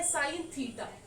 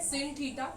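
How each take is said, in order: First: The first word has a long 'eye' vowel. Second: The first word has a short 'i' vowel.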